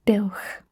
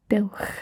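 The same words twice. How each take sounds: The two takes are said the same way.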